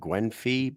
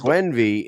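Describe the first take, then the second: First: The middle consonant is an f sound. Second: The middle consonant is a v sound. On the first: It is read the way the spelling looks. "I see with a F I, I'm like Gwenfy" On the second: It is said the way locals say it. "So it's Gwenvy"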